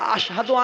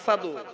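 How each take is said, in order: First: The word is said with an 'sh' sound. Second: The word is said with a plain 's' sound. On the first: The speaker calls it right. "আশহাদু আন্না উচ্চারণ করতে পারতেন না" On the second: The speaker calls it wrong. "আসাদু বলতেন"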